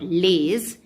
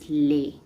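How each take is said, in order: First: The word ends with a z sound. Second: The word ends on a vowel. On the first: The speaker calls it wrong. "L E S is not lays" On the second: The speaker calls it right. "it is lay"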